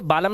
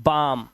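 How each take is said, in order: First: बालम with the l sounded; two syllables, बा-लम, audible l; wrong pronunciation. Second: बाम with silent l; one syllable बाम, long aa into m; correct pronunciation. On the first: Teacher warning against misreading, बालम with l. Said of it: "ये बालम नहीं है". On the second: Teacher correcting the misreading, बाम without l. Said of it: "इसे पढ़ते हैं". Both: Shown as a demonstration.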